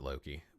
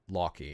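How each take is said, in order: First: The name is said with an English pronunciation. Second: The name is said with an Icelandic pronunciation. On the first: "you can pronounce it Loki" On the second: "how you would say it in Icelandic"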